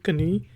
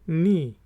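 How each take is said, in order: First: A k sound is heard before the n. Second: The word starts directly with the n sound. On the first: The speaker calls it wrong. "इसको बहुत से लोग मैंने सुना है कहते हैं कनी कनी" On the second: The speaker calls it right. "लेकिन ये होती है नी"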